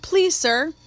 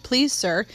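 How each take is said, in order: First: Please pitched much higher, rising, begging; a last high begging please, sir; son's final plea to his father; pleading. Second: Said in the usual way. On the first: A narrator's reading. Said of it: "pleaded Jim".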